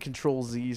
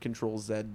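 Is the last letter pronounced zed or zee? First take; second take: zee; zed. First: The letter is pronounced zee. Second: The letter is pronounced zed. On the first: The speaker calls it right. "I think Control Z sounds more natural" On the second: The speaker calls it wrong. "than Control Zed does"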